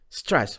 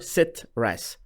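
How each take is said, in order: First: It starts directly with the consonant cluster. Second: A vowel is inserted inside the starting cluster. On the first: The speaker calls it right. "لاحظ stress" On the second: The speaker calls it wrong. "مو sit rest"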